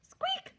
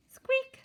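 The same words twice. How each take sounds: First: Very high, startled mouse squeak; panicked little squeak; alarmed squeak. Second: High, sharp little squeak; playful high-pitched squeak; mouse squeak. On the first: Acted. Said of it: "Mister Mouse yelled". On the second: A narrator's reading. Narrator adds mouse sound.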